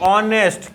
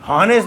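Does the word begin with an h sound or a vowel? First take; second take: vowel; h sound. First: The word begins with a vowel sound. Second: The word begins with an h sound. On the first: The speaker calls it right. "ये होता है ऑनेस्ट" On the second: The speaker calls it wrong. "इसको हॉनेस्ट नहीं बोलते हैं"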